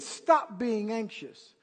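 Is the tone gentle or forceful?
gentle. It is said in a mild, gentle tone.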